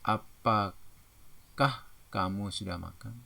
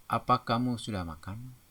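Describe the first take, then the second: First: "Apakah" split slowly into syllables; drawn-out a-pa-kah in "Apakah", then the rest; corrected question. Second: Said in the usual way. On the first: Shown as a demonstration. Teacher corrects example for class, slow stressed "Apakah". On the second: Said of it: "terpengaruh bahasa daerah".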